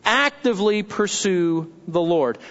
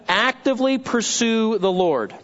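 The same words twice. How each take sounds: First: "Actively pursue the Lord" lower, in separate weighty chunks; emphatic repeat. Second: Said in the usual way. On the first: Shown as a demonstration. Pastor repeating his second point, "Actively pursue the Lord" deliberate and lower. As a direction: pause before "the Lord" and let it settle.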